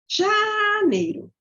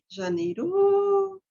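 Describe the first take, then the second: First: The first syllable is high and shrill. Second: The last syllable is high and shrill. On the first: "eu falo uma sílaba com um agudinho" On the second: "Ou no final"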